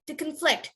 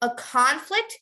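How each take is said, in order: First: The stress is on the second syllable. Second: The stress is on the first syllable.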